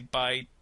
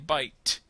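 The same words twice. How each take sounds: First: The final T is held and not released. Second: The final T is fully released. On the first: The speaker calls it right. "I say bite the" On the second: The speaker calls it wrong. "I don't say bite"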